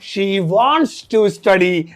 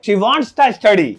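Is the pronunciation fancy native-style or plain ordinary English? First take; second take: plain; fancy. First: It is said in plain, ordinary English. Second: It is said in fancy, native-sounding English. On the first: "normal English में" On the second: "hi fi अंग्रेजों वाली English में"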